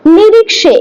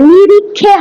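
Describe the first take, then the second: First: The middle consonant is a 'ksh' sound. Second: The middle consonant is a 'kh' sound. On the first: The speaker calls it right. "এটাই হচ্ছে কি উচ্চারণ, আসল উচ্চারণ সংস্কৃতে" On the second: The speaker calls it wrong. "খে হবে না, নিরিক্ষে হয় না"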